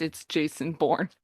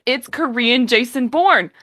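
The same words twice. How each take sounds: First: Resigned aside. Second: Louder, raised claim on "Korean Jason Bourne"; emphatic verdict on the drama; emphatic declaration. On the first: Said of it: "Jesus Christ". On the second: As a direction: announce it proudly. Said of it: "You know what?". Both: Real, not acted.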